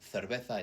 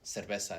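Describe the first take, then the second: First: It is said in a Spain Spanish accent. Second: It is said in a Latin American accent. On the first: "cerveza is Spanish Spanish" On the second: "cerveza is Latin American Spanish"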